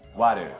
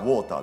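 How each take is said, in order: First: The middle consonant sounds like a D. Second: The middle consonant is a clear T sound. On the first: The speaker calls it right. "実際の発音というのはWater Water、これT ではなくD なんですね" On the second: The speaker calls it wrong. "見た目から想像される音がWater ですよね"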